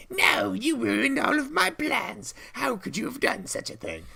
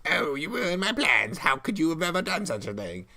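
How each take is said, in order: First: Foiled witch shrieking over her ruined plans. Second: Higher witchy whine; the defeated witch complaining. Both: Acted. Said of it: "That actually helps the witch voice".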